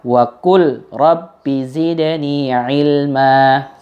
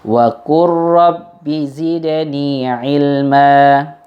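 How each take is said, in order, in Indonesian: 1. Huruf l dibaca terpisah sebelum r. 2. Bunyi l langsung menyatu dengan bunyi r. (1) "nggak boleh dibaca wa qul rabbi zidni ilma seperti itu" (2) "maka membacanya langsung"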